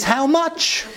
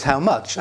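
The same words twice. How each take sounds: First: Much higher, laughing How much; a father laughing as he answers his daughter; laughing reply. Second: Said in the usual way. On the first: Retold or imitated. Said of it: "the answer to the question is". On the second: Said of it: "the answer was".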